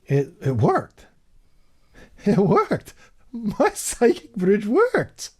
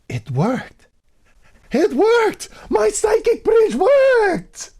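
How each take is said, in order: First: It sounds amazed, full of disbelief and wonder. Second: It sounds excited and thrilled that it works.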